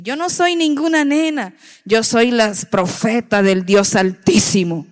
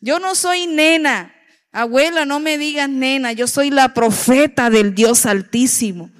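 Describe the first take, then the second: First: Put-on a child's commanding declaration to her grandmother; with authority. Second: With authority. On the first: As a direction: proclaim it like a little girl with great authority. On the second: Retold or imitated. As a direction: insist with full authority, the child correcting grandma. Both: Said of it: "así con esa autoridad".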